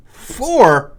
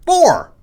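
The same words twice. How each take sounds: First: Four? in disbelief, rising doubt; incredulous repeat. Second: High loud verdict. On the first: Host doubting his own score, incredulous. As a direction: question the score, surprised. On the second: Host announcing the bully-meter score, high and loud. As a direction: call out four high and loud. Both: Acted. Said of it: "how many fists would this get you".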